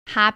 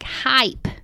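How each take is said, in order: First: The word has the speaker's regional pronunciation. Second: The word has a more standard pronunciation. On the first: "Hype is a weird word for me to say" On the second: "I guess it should sound more like hype"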